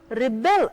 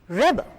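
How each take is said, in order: First: The stress is on the second syllable. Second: The stress is on the first syllable. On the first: It is a verb. "the stress is on the second half" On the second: It is a noun. "when the stress falls on the first part"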